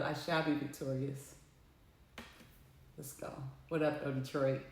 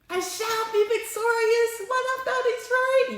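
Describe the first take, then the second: First: Much softer and lower, under the breath; quiet murmur. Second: Much higher, slow and triumphant; proclaimed high. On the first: Alone after the call, repeating the vow softly to herself. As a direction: say it to yourself, barely audible. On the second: Alone after the call, declaring victory high and slow. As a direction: announce victory in a lifted, far-off voice. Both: Shown as a demonstration. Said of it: "But I can".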